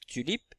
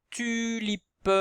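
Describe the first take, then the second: First: Said in the usual way. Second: TULIPE high, stretched syllable by syllable; teacher's lengthened TULIPE for listening; drawn-out word demo. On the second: Shown as a demonstration. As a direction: sound out TULIPE slowly with a long first vowel. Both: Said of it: "Est-ce qu'on entend ju".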